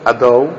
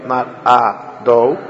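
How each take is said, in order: First: "Ado" with the chataf patach tight; joined. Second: "Ado" slow and drawn apart; wrong form. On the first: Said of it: "it goes like together". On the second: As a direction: stretch "Ado" out separately. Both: Shown as a demonstration.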